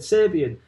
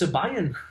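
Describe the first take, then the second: First: It sounds like Kasabian without the K. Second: It does not sound like Kasabian without K. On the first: The speaker calls it right. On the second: The speaker calls it wrong.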